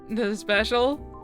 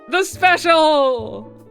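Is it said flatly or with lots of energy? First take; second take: flatly; energetic. First: It is said with little energy. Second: It is said with lots of energy.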